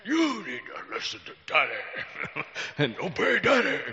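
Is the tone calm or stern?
stern. It is said in a stern, forceful tone. "It's usually"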